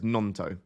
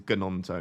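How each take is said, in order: First: The name starts without a G sound. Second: The name starts with a G sound. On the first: The speaker calls it right. "Don't pronounce the G" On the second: The speaker calls it wrong. "that would sound terrible"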